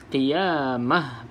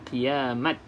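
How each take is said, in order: First: The word ends with a soft h sound. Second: The word ends with a t sound. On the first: The speaker calls it right. "bunyinya seperti huruf ha" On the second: The speaker calls it wrong. "bukan qiyamat"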